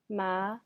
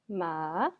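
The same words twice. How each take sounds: First: The pitch rises from middle to high. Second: The pitch dips low, then rises again. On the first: It means hemp. "The second tone goes up" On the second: It means horse. "first goes down and then goes up"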